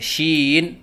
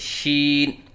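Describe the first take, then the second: First: The voice wavers while the word is held. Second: The voice stays steady while the word is held. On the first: The speaker calls it wrong. "आवाज़ में लहराव सा पैदा करते हैं, ये गलत है" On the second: The speaker calls it right. "सही अदायगी करें"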